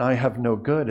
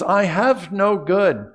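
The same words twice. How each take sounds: First: Said in the usual way. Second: "I have no good" higher, louder and slow; raised, slow, forceful "I have no good"; emphatic stress. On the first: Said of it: "where the emphasis isn't actually on". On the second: Shown as a demonstration. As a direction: press hard on "I have no good", drawing it out. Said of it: "we can put the emphasis".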